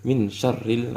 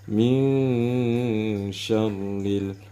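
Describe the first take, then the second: First: The n is pronounced plainly and clearly. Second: The n is blurred into a nasal sound. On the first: The speaker calls it wrong. "tidak di dibaca ikhfa ataupun samar-samar" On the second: The speaker calls it right. "harus kita baca"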